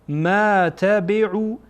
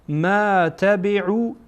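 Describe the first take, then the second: The two takes are said the same way.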